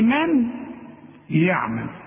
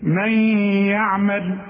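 First: The n is sounded clearly with the tongue. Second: The n blends into the following y sound. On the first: The speaker calls it wrong. "اوعى بقى تقول لي من يعمل" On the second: The speaker calls it right. "تقول ايه من يعمل"

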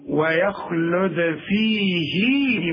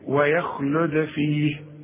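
First: The final vowel of 'fihi' is held long. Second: The word 'fih' ends with no long vowel. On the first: The reading continues on to the next word. "يثبت فيها المد" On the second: The reading stops on this word. "بدون مد"

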